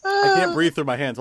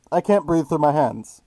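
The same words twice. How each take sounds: First: Speaking through cupped hands; muffled voice, hands over mouth. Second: Talking into cupped hands; muffled, hands over mouth; muffled through hands. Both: Real, not acted.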